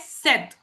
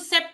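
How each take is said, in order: First: The p sound is silent in the word. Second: The p sound is pronounced in the word. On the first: The speaker calls it right. "I am reading it as सेट" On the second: The speaker calls it wrong. "मैं इसको सेप्ट नहीं पढ़ रही हूँ"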